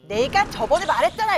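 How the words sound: It is said in an irritated, angry tone. An upset reader hears it as an angry reproach. "이렇게 읽는 거야"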